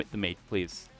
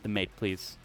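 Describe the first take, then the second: No difference in how they are said.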